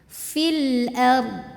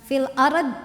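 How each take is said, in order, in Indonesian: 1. R-nya mengalir halus langsung ke konsonan terakhir. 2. R-nya dipantulkan, dengan vokal setelahnya. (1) "Jadi ro-nya ngalir tawasud ya, baru ke dod" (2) "bukan fil arad"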